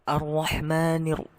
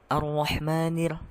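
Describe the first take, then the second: The two takes are said the same way.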